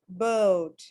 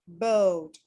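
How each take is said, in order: No difference in how they are said.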